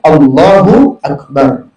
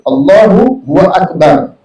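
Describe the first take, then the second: First: The two words join with no added sound. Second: A W syllable is inserted between the words. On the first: The speaker calls it right. "itu yang benar ya" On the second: The speaker calls it wrong. "ada wawnya... Nah itu tak boleh"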